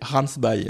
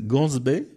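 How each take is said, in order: First: The name is read with Afrikaans pronunciation. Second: The name is read with French pronunciation. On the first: The speaker calls it right. "Mais il faut savoir que c'est" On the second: The speaker calls it wrong. "si on lit à la française"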